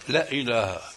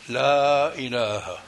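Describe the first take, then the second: First: The vowel of 'la' is kept short. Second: The vowel of 'la' is held for two counts. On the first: The speaker calls it wrong. "تكاد تقول لا إله" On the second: The speaker calls it right. "فبدك مد حركتين لا إله"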